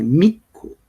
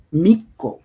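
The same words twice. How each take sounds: First: "mico" said as in the speaker's own language, not Spanish; native-language pronunciation. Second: Said in the usual way. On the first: Shown as a demonstration. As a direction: demonstrate the indigenous pronunciation of "mico". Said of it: "en nuestro idioma se dice mico". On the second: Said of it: "en español se dice mico".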